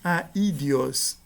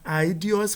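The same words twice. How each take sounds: First: The opening 'a' and 'i' are separate syllables. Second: The opening 'ai' is one gliding syllable. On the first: The speaker calls it right. "mas sim aidios" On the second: The speaker calls it wrong. "A pronúncia não é aidios"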